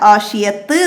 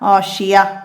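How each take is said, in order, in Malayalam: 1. ഈ വാക്ക് ത എന്ന ശബ്ദത്തിൽ അവസാനിക്കുന്നു. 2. ഈ വാക്ക് മൃദുവായ ഹ ശബ്ദത്തിൽ അവസാനിക്കുന്നു. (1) "ആഷിയത്ത് എന്ന് പറഞ്ഞിട്ട് നമ്മൾ വഖഫ് ചെയ്യൂല"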